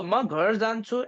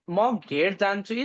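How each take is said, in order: First: "घर" said with a short open a, quick; "घर" with a short a, not an e; ghar with short a. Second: "घेर" said with an e vowel, quick; "घेर" with an e sound, contrasting with "घर"; gher with e. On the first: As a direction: say "म घर जान्छु" quickly, a plain short a in "घर". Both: Shown as a demonstration. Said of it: "is same".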